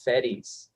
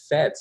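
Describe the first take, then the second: First: The name is said with two syllables. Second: The name is said with one syllable. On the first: This is how the film says the name. "they pronounced it Fetties" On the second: This is how the group has been saying it. "I've been saying Fets even in class"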